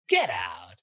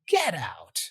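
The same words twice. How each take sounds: First: It sounds sarcastic and disbelieving. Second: It sounds amazed and surprised. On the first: The speaker does not believe the claim. "sarcastically, like you don't believe it" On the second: The speaker is amazed by the news. "you can also use get out to express surprise"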